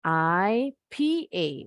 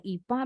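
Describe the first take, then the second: First: I P A read as three English letters; spelled letter by letter. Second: Ipa run together as one Indonesian word; the wrong reading ipa, two quick syllables ee-pa. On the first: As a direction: say I, P, A slowly, one letter at a time. (I P A dieja satu per satu, pelan) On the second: (ipa dibaca sebagai satu kata) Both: Shown as a demonstration. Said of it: "bukan ipa bacanya".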